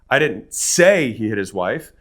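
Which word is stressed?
say. The stress is on the word 'say'.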